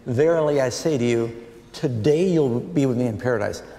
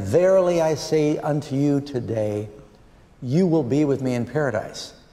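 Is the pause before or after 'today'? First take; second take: before; after. First: The pause comes before the word today. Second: The pause comes after the word today.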